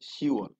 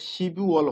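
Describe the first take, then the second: First: The p sound is dropped before wol. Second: A p sound is kept before wol. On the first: The speaker calls it right. "উচ্চারণ করব না, vanish" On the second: The speaker calls it wrong. "শিবুওয়াল হবে না কিন্তু"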